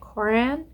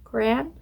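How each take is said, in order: No difference in how they are said.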